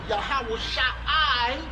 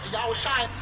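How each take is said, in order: First: The 'ah' sound is kept in the name. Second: An 'ah' sound is dropped from the name. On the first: The speaker calls it right. "instead of" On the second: The speaker calls it wrong. "you're in mistake when you say Yahweh Shai"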